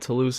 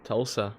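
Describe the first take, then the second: First: It is said like Toulouse, with a long oo. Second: It is said as the two syllables Tul-sa. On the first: The speaker calls it wrong. "I can even say it wrong now" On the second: The speaker calls it right. "That's right"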